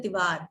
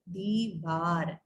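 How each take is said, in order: First: "दीवार" quick, with short "di"; the wrong short-I "दीवार"; common mispronunciation. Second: "दीवार" slow and low, long "dee"; both vowels long in "दीवार"; correct pronunciation. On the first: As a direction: say "दीवार" as "di-vaar", first vowel short. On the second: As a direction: stretch "दीवार" into "dee-vaar". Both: Shown as a demonstration. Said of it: "दीवार नहीं होता है".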